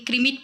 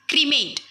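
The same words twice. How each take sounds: First: ક્રિમેટ said "KRI-mit"; alternative pronunciation. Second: ક્રિમેટ said "kri-MAYT"; long-vowel pronunciation. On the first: Teacher giving pupils the other accepted form, ક્રિમેટ said as "kri-mit". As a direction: say ક્રિમેટ with a short "i" in the last syllable. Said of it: "પણ કહેવામાં આવે". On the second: Teacher introducing a new word to pupils, ક્રિમેટ said as "kri-mayt". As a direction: say ક્રિમેટ with an "ay" in the last syllable. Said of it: "એને ક્રિમેટ પણ કહેવામાં આવે". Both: Shown as a demonstration.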